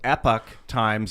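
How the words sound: Epoch is pronounced the American English way. "depending on if you're uh, uh, American English"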